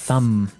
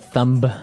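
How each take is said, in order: First: The word ends on the M sound. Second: A B sound is pronounced at the end. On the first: The speaker calls it right. "I actually only pronounce the M" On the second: The speaker calls it wrong. "you wouldn't say"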